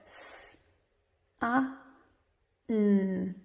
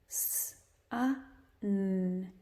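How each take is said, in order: First: The three sounds are said slowly, well apart. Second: The three sounds are said faster, closer together.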